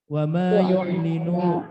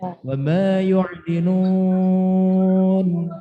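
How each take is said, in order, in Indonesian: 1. Terus berjalan tanpa berhenti ke kata berikutnya. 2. Berhenti pada kata yang diakhiri n sukun. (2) "Itu mat arid bil sukun"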